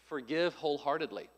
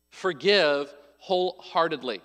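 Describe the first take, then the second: First: Said in the usual way. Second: "Forgive wholeheartedly" slow and firm, spaced out; emphatic repetition. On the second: Real, not acted. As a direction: stretch out each word of "Forgive wholeheartedly". Point repeated for emphasis.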